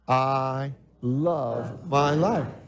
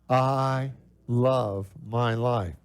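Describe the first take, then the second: First: It is said with strong, heartfelt conviction. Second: It is said in a plain, ordinary way.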